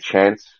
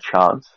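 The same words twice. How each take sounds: First: It is said in the speaker's usual Australian accent. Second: It is said in a South Australian accent. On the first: "I will say chance" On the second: "whereas a South Australian will say chance"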